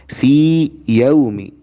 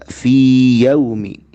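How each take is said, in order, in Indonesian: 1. Vokal panjang dibaca jelas selama dua harakat. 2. Vokal panjang dibaca jelas selama dua harakat.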